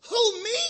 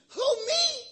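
First: Who, me? said high and loud as a startled question; emphatic demo. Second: Who, me? pushed even higher, loud, with a laugh in it; bigger emphatic demo. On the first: Preacher showing the congregation how to say it, emphatic. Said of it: "put the emphasis on it". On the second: Preacher pushing the crowd to say it better, hammed-up and laughing. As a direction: overplay the surprise in Who, me? laughing. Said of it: "We can do better than that". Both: Shown as a demonstration.

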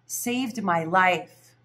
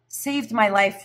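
First: "Saved" drawn out, very slow and falling; stress on saved. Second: "my" lifted and pushed, normal pace; stress on my. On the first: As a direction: linger heavily on "Saved" at a crawl. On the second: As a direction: lean on "my", as in my own life. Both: Shown as a demonstration.

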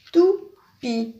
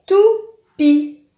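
First: Said in the usual way. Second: "Toupie" said higher and louder, stressing "pie"; bright naming of "Toupie" for children; word presented clearly. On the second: Shown as a demonstration. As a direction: hold up the picture and call out "Toupie". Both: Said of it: "ça finit par I".

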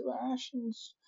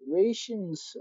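First: Much softer and higher, deflated; small high whimper. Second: Said in the usual way. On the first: Acted. Mourning the lost rations, soft and high. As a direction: let it shrink to a squeak.

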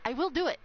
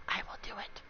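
First: Emphatic, full-voiced insistence; firm answer to a dare; insistent threat. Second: Very soft, low whisper; hushed, menacing promise; whispered threat. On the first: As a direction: lean hard on WILL. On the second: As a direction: whisper it as a warning. Answering a dare. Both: Real, not acted.

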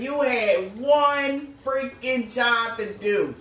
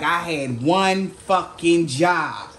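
First: Slow, deliberate mock scolding; universe scolding. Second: Slow, drawn-out exasperation at oneself; self-blaming groan. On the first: Universe telling this person off, slow mock scolding. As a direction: spell it out like a fed-up cosmic parent. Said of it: "the universe telling this person". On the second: Retold or imitated. Person realizing their failure, slow self-blaming exasperation. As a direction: drag it out like you blew the one thing you had to do. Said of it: "Like, kinda energy".

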